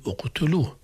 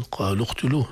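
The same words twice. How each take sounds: First: "اقتلوه" begun with a clear u, uqtuluh; initial hamza sounded. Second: "قالوا اقتلوه" run together as qalu-qtuluh; hamza dropped in linking. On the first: Teacher shows starting afresh, hamza voiced in "اقتلوه". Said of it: "لو بدأنا نقول". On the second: Teacher shows students joined reading, "اقتلوه" without its first vowel. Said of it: "لكن في الوصل". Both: Shown as a demonstration.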